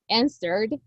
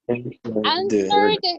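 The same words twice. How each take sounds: First: It is said with a North American accent. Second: It is said with a British accent. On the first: "sounds more North American" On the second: "is British pronunciation"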